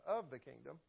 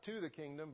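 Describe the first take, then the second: First: "of the kingdom" with "of" pushed forward and a lift; stress on of. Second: "to the kingdom" with the stress on to, then a falling close; the contrasting wrong reading, stress on "to"; wrong preposition stressed. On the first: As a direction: correct the word, lean on "of". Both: Shown as a demonstration. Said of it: "Big, big difference there".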